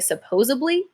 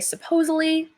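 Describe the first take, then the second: First: A b sound comes before the ending. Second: No consonant comes before the ending. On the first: "flip the D around to make it a B" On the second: "take the D out and say supposedly"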